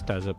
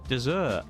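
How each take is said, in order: First: It is pronounced like the word desert. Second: It is pronounced like the word dessert. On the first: The speaker calls it right. "I know it's desert" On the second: The speaker calls it wrong. "I'm going to deliberately pronounce it wrong"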